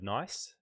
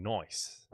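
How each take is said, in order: First: Said in the usual way. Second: "nice" in broad Australian, vowel turned to "oy"; exaggerated Australian accent. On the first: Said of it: "the word nice". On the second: Shown as a demonstration. Streamer explains the joke name to viewers, exaggerated Australian "nice". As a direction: say "nice" as "noice", Aussie style. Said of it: "exaggeration of the Australian accent becoming nice".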